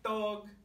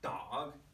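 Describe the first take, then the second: First: The word is said on a steady high pitch. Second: The word is said with a moving pitch. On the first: "I can say dog very high" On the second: "I can start changing my pitch"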